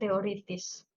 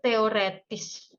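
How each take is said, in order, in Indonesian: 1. Suku kata ketiga bervokal i. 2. Suku kata ketiga bervokal e. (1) "bukan teoritis" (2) "bakunya itu teoretis"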